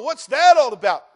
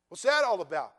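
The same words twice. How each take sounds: First: Loud, high cry of disbelief; a shouted what's that all about; exasperated shout. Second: Said in the usual way. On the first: Acted. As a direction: shout it out in mock bewilderment. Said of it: "you go".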